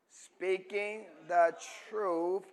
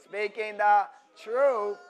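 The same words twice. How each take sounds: First: Said in the usual way. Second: "truth" punched loud and stretched; slow, high, loud push on "truth"; stress on truth. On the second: Shown as a demonstration. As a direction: hammer the word "truth". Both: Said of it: "put emphasis on that truth".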